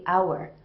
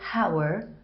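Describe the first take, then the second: First: The H at the start is silent. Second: The H at the start is pronounced. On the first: The speaker calls it right. "I say hour, wherein the H is silent" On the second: The speaker calls it wrong. "I don't say hour"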